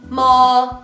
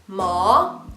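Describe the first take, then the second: First: The pitch stays even without a dip. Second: The pitch dips down and comes back up. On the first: It means mother. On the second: It means horse.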